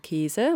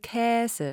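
First: The first vowel is a closed e sound. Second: The first vowel is an open ä sound. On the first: This is how most media speakers actually say it. "Die meisten viele Mediensprecher sagen Käse" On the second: This is the form the pronunciation dictionary lists. "Käse mit Ä"

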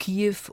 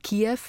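First: The name is said the German way, like Kiew. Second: The name is said the Ukrainian way, like Kyiv. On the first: This is the form adapted to German. "die eingedeutschte" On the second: This is the form used in the original language. "die originale"

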